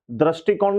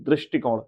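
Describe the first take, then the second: First: दृष्टिकोण said "dras-ti-koṇ"; wrong first syllable. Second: दृष्टिकोण begun "drish", with ri; correct first syllable. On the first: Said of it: "दृष्टिकोण नहीं". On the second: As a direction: give दृष्टिकोण as "drish-ṭi-koṇ". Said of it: "री की मात्रा लगेगी". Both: Shown as a demonstration.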